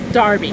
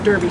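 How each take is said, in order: First: The first vowel sounds like the vowel in car. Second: The first vowel sounds like the vowel in her. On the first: This is the older family name usage. "it was spelled a lot D A R B Y, which meant that it was pronounced Darby" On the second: This is the current usage for the street. "current pronunciation, when you speak of Derby Street or the Derby House, is to pronounce it D E R B Y"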